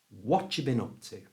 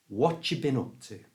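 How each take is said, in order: No difference in how they are said.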